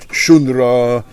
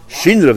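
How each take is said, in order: First: The first vowel is an 'oo' sound. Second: The first vowel is an 'ee' sound. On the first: It sounds like the word for song, a good sign. "in a place where they call it shunra" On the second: It sounds like the word for change, a bad sign. "if they pronounce it shinra"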